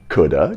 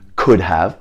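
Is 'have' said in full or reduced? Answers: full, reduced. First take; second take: reduced; full. First: 'Have' is reduced to a weak schwa sound. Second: Both words are said fully, with a clear 'have'. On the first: "becomes coulda" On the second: "Could have becomes coulda"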